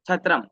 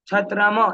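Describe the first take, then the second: First: The final m is unstressed and released immediately. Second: The final m is fully sounded and held. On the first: The speaker calls it right. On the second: The speaker calls it wrong.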